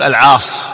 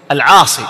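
First: "العاص" slow, stopping on the saad; permitted variant. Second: "العاصي" loud, ending in long ee; most correct classical form. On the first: Teacher giving the variant form, "العاص" without final ee. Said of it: "يجوز في بعض". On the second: Teacher giving the eloquent form, "العاصي" with long final ee. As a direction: say "العاصي" as al-'aasee. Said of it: "هكذا هو الأصح". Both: Shown as a demonstration.

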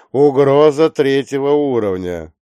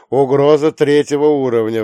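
First: Loud, higher alert, "угроза" stressed; urgent alert. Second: Loud, higher emergency announcement; urgent alert. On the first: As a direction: lean hard on "угроза". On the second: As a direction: ring out the threat level. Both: Acted. Dispatcher repeats threat level.

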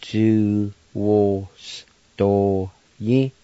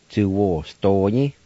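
First: Ju-wo-sto-yi stretched out very slowly, syllable by syllable; teacher drawing out Ju-wo-sto-yi; very slow pronunciation. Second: Ju-wo-sto-yi said slowly but flowing; careful Ju-wo-sto-yi for learners; slower pronunciation. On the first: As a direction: drag out Ju-wo-sto-yi for learners to copy. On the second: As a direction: say Ju-wo-sto-yi slowly as one word. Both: Shown as a demonstration. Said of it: "And now I'll pronounce them".

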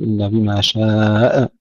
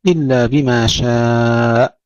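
First: شاء ending in an echoed hamza; wrongly bounced hamza. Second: Slow recitation, long شاء cut cleanly on the hamza; unbounced final hamza. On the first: Teacher mimics some students' mistake, bounced hamza. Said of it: "إذا لا نقول إلا بما شاء". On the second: Teacher models the verse ending, still hamza. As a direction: hold the آ of شاء, then stop dead, no echo. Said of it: "نسكن الهمزة بدون قلقلة". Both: Shown as a demonstration.

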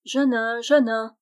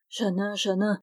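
First: Name called out a bit louder; calling voice. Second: Said in the usual way. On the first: Acted. Dwarf startling Jeannin with a call. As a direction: call him by name from close by. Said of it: "dit tout auprès de lui une voix bien connue". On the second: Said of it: "ne songe qu'à ceux que tu aimes".

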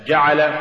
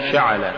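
First: Said in the usual way. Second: "شعل" with sh replacing j; jim becomes shin. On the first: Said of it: "استبدال الجيم بالشين". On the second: Shown as a demonstration. Teacher showing an error, "شعل" said with shin for jim. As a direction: soften j into sh, giving "شعل". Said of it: "تقرأ لحنا".

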